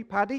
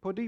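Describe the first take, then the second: First: Paddy with an open a, asking. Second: Puddy with an oo vowel, asking. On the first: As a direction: say paddy as in paddy field, rising. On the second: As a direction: say puddy, short u, rising. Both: Shown as a demonstration. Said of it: "Or a paddy?".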